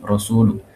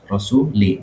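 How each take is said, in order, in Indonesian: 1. Kata ini diakhiri dengan vokal 'u'. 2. Kata ini diakhiri dengan vokal 'i'. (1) "bukan rasulu" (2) "rasuli bukan rasulu"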